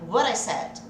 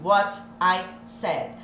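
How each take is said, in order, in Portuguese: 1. O t em 'what' é um flap rápido. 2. O t em 'what' é um t claro. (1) "O meu T virou rã" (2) "ao invés de what I said"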